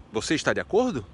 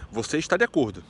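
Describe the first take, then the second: First: "Você está de acordo?" with the tune lifted on "acordo", as a question; entonação de pergunta. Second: Said in the usual way. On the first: Shown as a demonstration. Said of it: "só mudando a entonação no português". (entonação de pergunta em "Você está de acordo?", marcada em "acordo") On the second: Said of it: "pra fazer entender que era uma pergunta".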